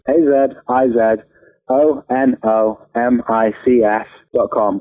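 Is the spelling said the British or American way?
British. The letters are spelled the British way.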